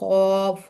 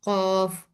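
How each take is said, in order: First: It is said with the mouth closed. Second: It is said with clenched teeth, sound filling mouth. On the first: "मुंह बंद करके, तो ये गलत होगा" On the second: "दांतों को बंद करके मुंह में आवाज भरूं"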